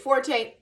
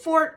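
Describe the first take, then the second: First: The word is said as two syllables. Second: The word is said as one syllable. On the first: "Is it Forte?" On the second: "Is it Fort?"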